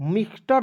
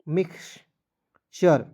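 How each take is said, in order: First: The word is said with a plain t sound. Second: The word is said with a ch sound. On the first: The speaker calls it wrong. "मिक्सटर नहीं पढ़ लीजिएगा" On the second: The speaker calls it right. "मिक्सचर पढ़ना है"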